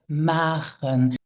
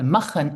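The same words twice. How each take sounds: First: It is pronounced the Luxembourgish way. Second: It is pronounced the German way. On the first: The intended language is used. The speaker calls it right. "instead of" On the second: The more familiar language slipped in. The speaker calls it wrong. "maybe you often say"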